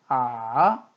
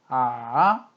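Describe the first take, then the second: The two takes are said the same way.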